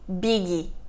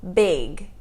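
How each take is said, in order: First: An extra vowel is added after the final consonant. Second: The word ends on the consonant with no vowel. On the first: The speaker calls it wrong. "Nós não falamos biggie" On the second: The speaker calls it right. "Nós falamos big"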